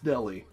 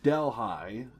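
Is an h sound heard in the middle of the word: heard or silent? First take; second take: silent; heard. First: No h sound is heard in the middle. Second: An h sound is heard in the middle. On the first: The speaker calls it right. "H is silent" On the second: The speaker calls it wrong. "I thought it was Delhi"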